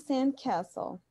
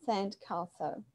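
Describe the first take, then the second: First: Slow American "sand castle", short flat A as in cat; American pronunciation. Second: British "sand castle", softer, long "ah" in castle; British pronunciation. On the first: Teacher contrasting it with British for students, American pronunciation. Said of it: "Em inglês americano, nós temos". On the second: Teacher repeating the example for students, British pronunciation. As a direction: say CASTLE the British way, "kah-sul". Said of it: "Em inglês britânico, né?". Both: Shown as a demonstration.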